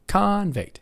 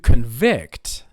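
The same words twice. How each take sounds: First: The stress is on the first syllable. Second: The stress is on the second syllable. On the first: It is the noun for a criminal. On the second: It is the verb for finding someone guilty.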